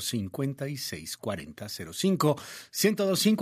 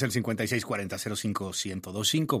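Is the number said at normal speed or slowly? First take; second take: slowly; normal. First: The number is said more slowly. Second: The number is said at normal speed.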